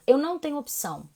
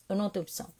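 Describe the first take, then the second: First: EU lifted and pushed out, firm insistence; insistent first take; emphatic. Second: Softer, dropping repeat of "Eu não tenho opção"; quiet resigned second take; resigned echo. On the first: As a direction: lean on "Eu não tenho opção" with conviction. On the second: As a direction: let it fall away in resignation. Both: Real, not acted. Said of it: "repeats the phrase".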